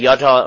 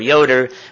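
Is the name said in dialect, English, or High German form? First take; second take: High German; English. First: The name is said in its High German form. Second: The name is said in its English form. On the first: "It's the High German version" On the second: "we don't say Jota or Yoder"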